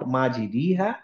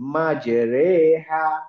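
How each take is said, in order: First: The vowel after r sounds like i. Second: The vowel after r sounds like e. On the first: The speaker calls it wrong. "Not" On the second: The speaker calls it right. "মাঝামাঝি একটা জায়গায় অনেকটা এ এর মতো উচ্চারণ"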